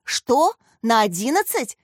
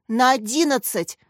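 First: Astonished echo, starting high; delighted amazement. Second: Emphatic, higher-pitched exclamation; exclaiming. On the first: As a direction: repeat it as a thrilled question. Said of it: "восхитилась Яся". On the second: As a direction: answer with playful enthusiasm, falling at the end. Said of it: "воскликнула Катя". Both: A narrator's reading.

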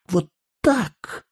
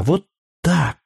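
First: Put-on high, quieter child's cry with a sob; the little girl near tears as she hugs; a touch of a crying child, higher and softer; tearful child. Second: Put-on high childish hug-talk; a child squeezing tight, eager; a lightly voiced eager little girl. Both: A narrator's reading. Child hugging, promising.

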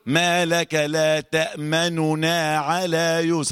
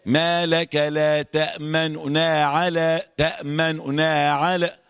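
First: تأمننا with a full clear damma on the first nun. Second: تأمننا slow with only a third of the damma on the nun; rawm. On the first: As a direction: say تأمننا with the complete u vowel. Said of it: "لو جبت ضمة كاملة أقول". (تأمننا بضمة كاملة) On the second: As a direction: give تأمننا a faint partial u. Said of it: "يوم يقول إيه". (تأمننا بالروم ثلث الحركة) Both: Shown as a demonstration.

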